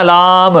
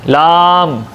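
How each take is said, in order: First: लाम with a bounced qalqala ending; the mistaken bouncing लाम; wrong lam. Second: लाम slow and smooth, no bounce at the end; correct lam. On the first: Teacher shows the wrong lam to students. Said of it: "ये नहीं कहना लाम". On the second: Teacher corrects the lam for students. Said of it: "ये नहीं कहना लाम, नहीं, लाम". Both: Shown as a demonstration.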